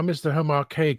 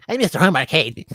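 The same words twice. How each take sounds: First: Said in the usual way. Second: Higher, louder put-on character voice; Joe impression. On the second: Demonstrating how different the name sounds, in a louder Joe voice. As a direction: call it out as Joe, pitched up and punchy. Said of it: "sound so different in Joe".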